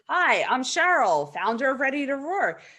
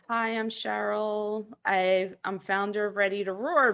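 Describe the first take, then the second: First: It sounds self-assured and confident, without stumbling. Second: It sounds hesitant and unsure, with a stumble.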